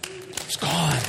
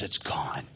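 First: Higher, fuller, rising joy; joyful release. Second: Lower, hushed whisper; awed whisper. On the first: Prisoner rejoicing to the preacher that his shame is gone. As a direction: let the relief burst out. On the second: Prisoner telling the preacher the rock is gone, whispered. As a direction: barely breathe it in wonder. Prisoner repeats, relief building. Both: Retold or imitated.

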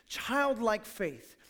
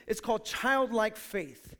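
First: Put-on childlike faith drawn out slowly, each word weighted; slow emphasis. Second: Said in the usual way. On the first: Shown as a demonstration. Pastor repeating the key phrase to the church, slowly.

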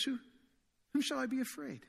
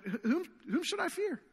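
First: Softer, unshaken whom shall I be afraid; hushed, sure-footed whom with no alarm; quiet confident question. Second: High, disbelieving whom should I fear; stammered, high-pitched questioning of whom; incredulous question. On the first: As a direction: say it calmly, fearless under pressure. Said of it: "But David says". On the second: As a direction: ask it as if it makes no sense. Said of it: "David would ask that question". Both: Retold or imitated.

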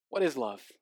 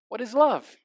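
First: Softer spoken echo of the hook; quiet echo. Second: Lightly sung dance hook; half-sing the question like the pop hook; sung, song lyric. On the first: Pastor echoing the song question quietly to the congregation. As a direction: let the question drop off quietly. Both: Retold or imitated. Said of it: "[name] summed it up all by asking".

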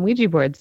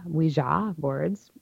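First: Ouija ending in "jee"; common pronunciation. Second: Ouija ending in "jah"; original-style pronunciation. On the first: Host giving what we all call them, Ouija with "jee". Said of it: "we all call 'em". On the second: Host joining French and German yes, Ouija with "zhah". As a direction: slowly say Ouija as "wee-ZHAH". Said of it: "but we all call 'em". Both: Shown as a demonstration.

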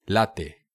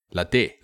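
First: Latte as LAT-te, falling at the end; stress on first syllable. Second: Latte as lat-TE, rising at the end; stress on last syllable. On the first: Host trying ways to say latte, LAT-te with falling end. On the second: Host trying ways to say latte, lat-TE with rising end. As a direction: say latte with the final syllable lifted. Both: Shown as a demonstration. Tries alternative pronunciations of latte.

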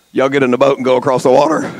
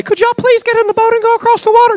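First: Plain command. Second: High, far polite asking voice; polite request. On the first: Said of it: "he told them". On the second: Contrasting Jesus with an overly polite asker. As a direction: ask sweetly and politely. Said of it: "He didn't say". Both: Retold or imitated.

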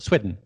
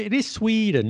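First: "Sweden" said as Swedden; "Sweden" rhyming with leaden; short E in Sweden. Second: "Sweden" with a long ee, pitched high. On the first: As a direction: clip the first vowel of "Sweden" to a short eh. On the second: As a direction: insist on "Sweden" as Swee-den. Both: Shown as a demonstration. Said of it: "not Sweden".

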